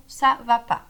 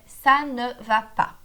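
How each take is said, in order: First: "ça va pas" with no "ne" between ça and va; informal dropped "ne". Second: "ça ne va pas" slowly, every word separate; full correct form. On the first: Teacher showing how French people say it informally, ne dropped. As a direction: say "ça va pas", leaving out the "ne". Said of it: "Eles excluem o ne". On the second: Teacher showing the correct negative, slow and word by word. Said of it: "O correto, de fato". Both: Shown as a demonstration.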